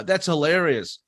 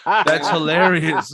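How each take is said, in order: First: Flat, unamused "that's hilarious"; mocking a texter who types instead of laughing; deadpan fake praise. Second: "That's hilarious" dragged out slowly and pressed a bit louder; a comedian mocking people who say it instead of laughing; slow exasperated mimic. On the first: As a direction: say "That's hilarious" as if it isn't funny at all. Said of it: "you go". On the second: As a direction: spell out "That's hilarious" word by word, fed up. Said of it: "Just don't say".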